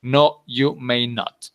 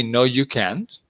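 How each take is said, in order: First: Slow, emphatic "No, you may not". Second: Said in the usual way. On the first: Shown as a demonstration. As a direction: draw out "No, you may not" word by word, firmly refusing. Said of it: "if you want to be very emphatic". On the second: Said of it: "Can't is the regular answer".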